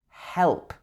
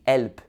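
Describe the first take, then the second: First: The word starts with an h sound. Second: The word starts without an h sound. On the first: The speaker calls it right. "It should be help" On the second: The speaker calls it wrong. "Help wouldn't be help"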